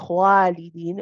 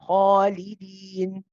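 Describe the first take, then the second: First: The long vowel sounds light and thin. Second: The long vowel sounds heavy and dark. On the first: The speaker calls it wrong. "try to make it light" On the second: The speaker calls it right. "this alif will be read heavy"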